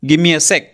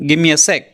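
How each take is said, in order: The two takes are said the same way.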